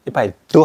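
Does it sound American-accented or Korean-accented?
Korean-accented. It is said with a relaxed Korean-style pronunciation. The speaker calls it wrong.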